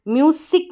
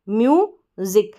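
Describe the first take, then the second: First: The middle consonant is a hissing s sound. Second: The middle consonant is a buzzing z sound. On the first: The speaker calls it wrong. "म्यूसिक नहीं पढ़ेंगे" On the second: The speaker calls it right. "ज करके ये जो एस है ना इसका sound"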